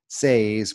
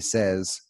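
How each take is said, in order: First: The vowel is a long A, rhyming with say. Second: The vowel is a short E, like in said. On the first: The speaker calls it wrong. "it looks like it should be say, says" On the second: The speaker calls it right. "but instead it's say, says"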